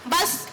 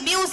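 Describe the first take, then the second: First: The vowel sounds like a short 'uh'. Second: The vowel sounds like 'yoo', following the letter names. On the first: This is how the word is actually spoken. "சொல்லாக உச்சரிக்கும் பொழுது பஸ் அப்படின்னு வருது" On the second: This follows the sounds of the individual letters. "முறையா அது எப்படி உச்சரிக்கணும்னா பி யூ எஸ் அப்படின்னு தானே வருது, அப்படி வியூஸ் அப்படின்னு தான் வரணும்"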